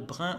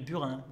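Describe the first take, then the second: First: It uses a locally deformed pronunciation. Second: It uses the standard pronunciation. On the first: "déformations dues à la prononciation" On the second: "au lieu de"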